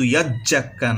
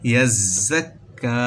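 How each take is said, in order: First: The doubled consonant sounds like 'j'. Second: The doubled consonant sounds like 'z'. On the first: The speaker calls it wrong. "এখানে কিন্তু ইয়াজ জাক্কা না" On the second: The speaker calls it right. "বলতে হবে ইয়াজ জাক্কা জা এবং জিম উচ্চারণ আলাদা"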